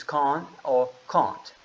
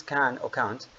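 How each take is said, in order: First: British accent, "can or can't" with "can't" given the long ah of car. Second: American accent, "can or can't" with the flat a of cat, "can't" ending in a clear t. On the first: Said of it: "British accent is". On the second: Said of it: "in American accent is". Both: Shown as a demonstration.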